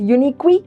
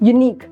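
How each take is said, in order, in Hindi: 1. शब्द के अंत में एक अतिरिक्त स्वर ध्वनि जुड़ती है। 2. शब्द सादी k ध्वनि पर खत्म होता है। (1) "We don't pronounce it like that" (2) "pronunciation end"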